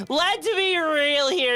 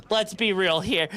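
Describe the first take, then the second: First: "Let's be real here" slower, higher, leaning on "be"; drawn-out emphasis. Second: Said in the usual way. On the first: Shown as a demonstration.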